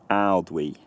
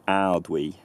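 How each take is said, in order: The two takes are said the same way.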